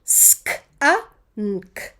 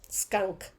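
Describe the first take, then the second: First: Sk-a-nk as "sk... uh... nnk", spaced; segmented phonics reading with clear gaps; sounding out. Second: Said in the usual way. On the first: Shown as a demonstration. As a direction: read Sk-a-nk sound by sound. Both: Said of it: "Let's read them".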